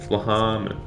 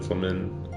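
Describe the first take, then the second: First: The H in the middle is pronounced. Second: The H in the middle is left silent. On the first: The speaker calls it right. "She's got an H" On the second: The speaker calls it wrong. "Sounds better than Flamin"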